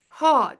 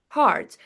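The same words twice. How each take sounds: First: The word is said without an R sound. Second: The word is said with a clear R sound. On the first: "Non-rhotic, we're saying hard, hard, without pronouncing R" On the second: "rhotic, like American accent, we're saying hard, hard. We're pronouncing R clearly"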